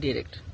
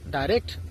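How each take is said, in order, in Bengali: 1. প্রথম স্বরধ্বনিটি ছোট 'i'। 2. প্রথম স্বরধ্বনিটি 'eye' এর মতো শোনায়। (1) "ডিরেক্টও সঠিক উচ্চারণ" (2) "ডাইরেক্টও সঠিক উচ্চারণ"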